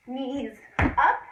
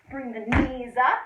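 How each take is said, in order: First: Loud snappy call; coach calling out a cue. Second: Loud coaching call, knees up; coach calling out a cue. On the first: Coach cueing a tuck jump for children, loud. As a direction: punch it out for the class. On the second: Kids' fitness coach calling out the move, loud. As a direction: bark the cue at the kids. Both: Shown as a demonstration. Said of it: "coach calls jump cue".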